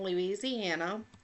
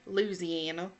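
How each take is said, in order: First: The name is said carefully with every syllable. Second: The name is said casually with syllables run together. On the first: The speaker calls it right. "I had to practice saying it correctly" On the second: The speaker calls it wrong. "I get to talking and I say Louisiana"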